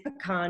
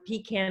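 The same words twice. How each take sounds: First: It is said like puh-kahn. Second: It is said like pee-can. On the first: The speaker calls it right. "it is pecan" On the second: The speaker calls it wrong. "pecan is something a soldier takes"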